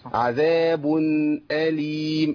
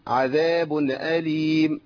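First: The n sound is silent and held with a slight rest. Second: The n sound carries an added vowel into the next word. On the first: The speaker calls it right. "لازم أريح شوية عشان أبين" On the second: The speaker calls it wrong. "كتير من الناس بيهز التنوين ويحركه"

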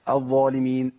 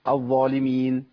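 The two takes are said the same way.

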